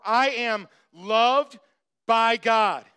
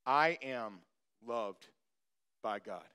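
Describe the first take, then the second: First: Louder, slow and deliberate; said with heart. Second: Softer, inward, spoken to yourself. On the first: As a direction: declare it slowly from the heart. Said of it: "say it in your heart". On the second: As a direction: murmur it softly, just for you. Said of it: "You need to say this to yourself". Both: Shown as a demonstration.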